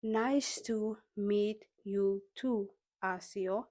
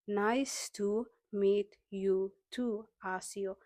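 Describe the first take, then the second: No difference in how they are said.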